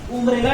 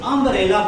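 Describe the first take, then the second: First: The word starts with an 'oo' vowel. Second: The word starts with an 'uh' vowel. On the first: The speaker calls it wrong. "उम्ब्रेला नहीं बोलते" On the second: The speaker calls it right. "अम्ब्रेला बोलते हैं"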